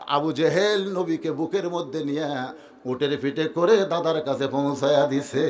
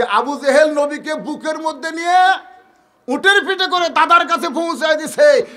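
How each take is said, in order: First: Low, soft melodic narration; subdued storytelling. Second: Raised, forceful declamation; impassioned preaching. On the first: Preacher tells of Abu Jahl carrying the child, low and soft. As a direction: tell it low, stretching the phrase endings. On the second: Preacher stresses Abu Jahl's good deed, raised forceful declamation. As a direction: hammer the story out in a high voice. Same story repeated at full force. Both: A narrator's reading.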